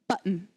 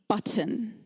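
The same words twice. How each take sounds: First: The T in the middle is silent. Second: The T in the middle is clearly pronounced. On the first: This is the current common pronunciation. "The T has become silent" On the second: This is the older pronunciation. "when I was a child, this was pronounced button"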